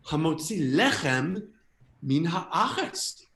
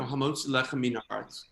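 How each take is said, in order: First: Slow, wondering, each Hebrew word drawn out; sudden realization. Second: Put-on American-accented Hebrew, rattled off by rote; bad American accent. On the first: Acted. Understanding the blessing for the first time, amazed. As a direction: stretch each word as its meaning dawns. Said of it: "suddenly I'm like, "Oh my God". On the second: Saying the blessing before the meal, bad American accent. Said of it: "in my bad American accent".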